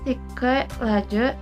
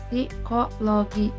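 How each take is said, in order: First: It is pronounced the English way. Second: It is pronounced the Indonesian way. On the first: This is the original foreign form. "Bentuk asal psikologi, pelafalan" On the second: This is the form absorbed into Indonesian. "bentuk serapan psikologi, pelafalan"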